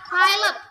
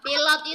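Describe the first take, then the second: First: It is said with an English pronunciation. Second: It is said with an Indonesian pronunciation. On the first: "dibacanya pilot" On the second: "pilot itu"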